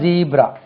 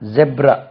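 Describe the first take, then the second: First: The first vowel is a long 'ee' sound. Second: The first vowel is a short 'eh' sound. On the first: "second தான் ஜீப்ரா" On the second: "first உச்சரிப்பு வந்து ஜெப்ரா"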